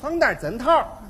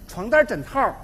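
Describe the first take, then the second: First: It is spoken in a Tianjin accent. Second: It is spoken in a Beijing accent. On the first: "到了天津就变味儿了" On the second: "北京的大姑娘说话非常好听"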